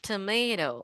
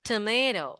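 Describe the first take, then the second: First: It is said with an American accent. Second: The same.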